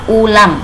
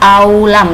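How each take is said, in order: First: The word begins directly with an 'oo' sound. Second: The word begins with an extra 'a' sound. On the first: The speaker calls it right. "bacanya ulam" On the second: The speaker calls it wrong. "tidak dibaca aulam, tidak, bukan begitu ya"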